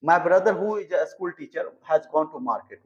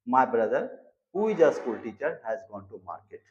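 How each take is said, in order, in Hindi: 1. वाक्य बिना रुके चलता है। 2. छोटे विराम बीच के वाक्यांश को अलग करते हैं।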